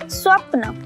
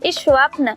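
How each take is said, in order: First: It starts directly with the s consonant cluster. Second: It starts with an added short i vowel. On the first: The speaker calls it right. "फिर हम उसे सा ही पढ़ते हैं, इस नहीं पढ़ते" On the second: The speaker calls it wrong. "वो हर बार इस ही पढ़ेगा"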